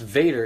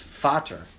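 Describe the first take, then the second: First: It is said with an English pronunciation. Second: It is said with a German pronunciation. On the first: The speaker calls it wrong. "it's not pronounced Vader" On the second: The speaker calls it right. "It's pronounced Vater in German"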